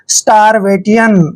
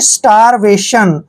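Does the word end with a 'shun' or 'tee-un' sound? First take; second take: tee-un; shun. First: The ending is said as separate 'tee-un' sounds. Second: The ending is said as one 'shun' sound. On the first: The speaker calls it wrong. "इसको पढ़ेगा स्टारवेटियन, जो कि गलत है" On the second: The speaker calls it right. "जब भी चारों letter इकट्ठे आते हैं तो इसको हम पढ़ते हैं शन"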